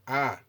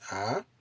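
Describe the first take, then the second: First: The pitch stays high and level. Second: The pitch rises across the vowel. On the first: "high intonation is indicated with the circumflexed accent" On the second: "this is the ah, increasing intonation"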